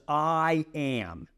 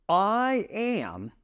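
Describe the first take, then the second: First: Said in the usual way. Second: "I am" lifted higher and set apart, weighty; emphatic I am. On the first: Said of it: "Jesus answers". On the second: Shown as a demonstration. Teacher repeats Jesus' answer to the class, weighty and emphatic. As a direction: give "I am" its full weight, slow and solemn. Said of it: "I am, okay?".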